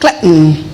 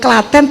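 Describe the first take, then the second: First: Said English-style like Britain, second vowel reduced. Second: Said the Indonesian way, with a full second vowel.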